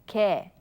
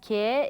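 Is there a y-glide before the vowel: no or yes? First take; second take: no; yes. First: The vowel is a plain 'e', like 'ge'. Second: The vowel starts with a y-glide, like 'gye'. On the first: The speaker calls it right. "it is pronounced as 게" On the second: The speaker calls it wrong. "instead of being pronounced as 게"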